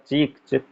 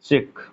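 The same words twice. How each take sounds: First: चीख with long "ee", then चिक with short "i"; contrast long and short. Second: चिक said with a short "i", like English "chick"; चिक with short i, not the long ई of चीख; wrong short vowel. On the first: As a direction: set चीख and चिक side by side to show the vowel length. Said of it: "बोलने में थोड़ा सा है". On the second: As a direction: show the mistake: चिक, short and clipped. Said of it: "धोखे में आपने क्या कह दिया". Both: Shown as a demonstration.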